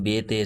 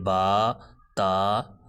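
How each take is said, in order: First: The letter names end in an 'e' vowel. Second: The letter names end in an 'a' vowel. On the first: The speaker calls it wrong. "Urdu तलफ़्फ़ुज़ से परहेज़ करें। यानी बेते से नहीं पढ़ना" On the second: The speaker calls it right. "अरबी लहजा में अदा करें ... बल्कि बा, ता, सा, खा इस अंदाज से पढ़ना है"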